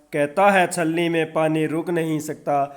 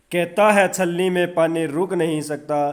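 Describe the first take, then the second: No difference in how they are said.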